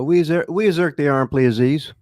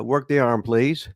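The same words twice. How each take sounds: First: "we exert the arm" in higher carny lingo, spoken as code; carny talk demo. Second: Said in the usual way. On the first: Shown as a demonstration. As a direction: drop into carny slang, pitched up. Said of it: "So give us a little carny". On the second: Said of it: "You know".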